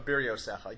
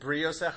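First: A short vowel separates the first two consonants. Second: The first two consonants join with no vowel. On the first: The speaker calls it right. "it's probably supposed to be Biriosecha" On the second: The speaker calls it wrong. "the hypercorrect one is Briosecha"

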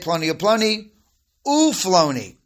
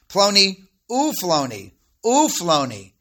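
First: The connecting 'u' sounds get no special emphasis. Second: The connecting 'u' sounds are clearly emphasized.

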